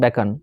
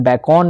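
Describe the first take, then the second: First: The second syllable has a weak schwa vowel. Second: The second syllable has a full 'o' vowel. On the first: The speaker calls it right. "इसे क्या पढ़ेंगे बैकन" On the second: The speaker calls it wrong. "इसे बैकॉन नहीं पढ़ेंगे"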